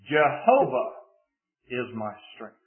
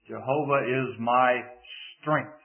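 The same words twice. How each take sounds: First: The word Jehovah is stressed. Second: The word strength is stressed. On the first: It is this particular God who is the strength. "Put the emphasis on the first word" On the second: The power comes from God, not from oneself. "if we place the emphasis on the fourth word"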